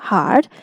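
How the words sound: The R sound is pronounced after the vowel. "This is according to the American pronunciation"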